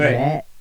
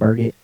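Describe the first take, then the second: First: The ending sounds French, like baguette. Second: The name is said plainly, English style. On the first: Some people make the name sound fancy. The speaker calls it wrong. "you get fancy on me... like baguette" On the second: This is the real pronunciation of the name. The speaker calls it right. "it's not that fancy. I promise. It's just Burgett"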